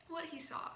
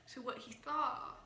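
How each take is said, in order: First: Said in the usual way. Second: "saw" lisped, the s coming out as th; "saw" with a lisp, sounding like "thaw". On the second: Real, not acted. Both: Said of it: "sorry, my lisp".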